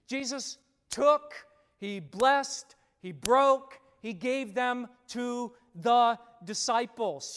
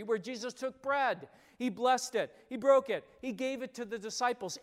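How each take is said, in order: First: Took, blessed, broke punched loud; stressed verbs. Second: Blessed and broke punched loud; stressed verbs. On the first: Pastor driving home communion pattern, punching verbs. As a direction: hammer each verb louder. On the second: Pastor repeating the feeding pattern, stressing verbs. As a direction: hit each verb. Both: Shown as a demonstration. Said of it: "I'm gonna emphasize certain words".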